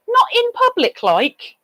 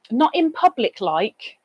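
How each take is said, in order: First: High mock echo. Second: Said in the usual way. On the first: Real, not acted. Mocking echo of a comment to the chat. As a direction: leap much higher on not.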